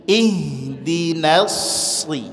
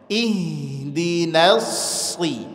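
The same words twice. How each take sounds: No difference in how they are said.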